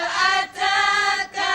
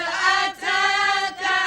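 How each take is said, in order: The two takes are said the same way.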